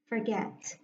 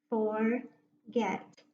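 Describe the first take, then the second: First: Said in the usual way. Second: "Forget" broken as For, pause, get, both syllables full; split into two chunks. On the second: Shown as a demonstration. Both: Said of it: "read it with me in two chunks".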